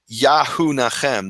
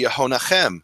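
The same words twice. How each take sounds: First: "Yahunachem" slowly, with full YA-HU at the start; awkward unreduced form. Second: "Yehonachem" with a reduced first vowel, ye-ho; normal Hebrew form. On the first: Showing how Hebrew doesn't work, awkward slow pronunciation. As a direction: say "Yahunachem" as ya-hu-na-KHEM, drawn out. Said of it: "it wouldn't normally be". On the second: Explaining the name with Yah in front, normal reduced pronunciation. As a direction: say "Yehonachem" as ye-ho-na-KHEM. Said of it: "it would be Yehonachem". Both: Shown as a demonstration.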